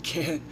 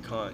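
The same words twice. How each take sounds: First: The vowel sounds American, a flat 'a'. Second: The vowel sounds British, a broad 'ah'. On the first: The speaker calls it right. "You're at an American school now. Say Kant" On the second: The speaker calls it wrong. "don't say Kant"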